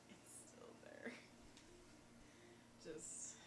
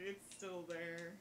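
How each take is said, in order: First: Hushed, voiceless echo; barely-there whispered aside. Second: Said in the usual way. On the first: Real, not acted. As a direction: repeat it in a real whisper. Repeats it in a whisper.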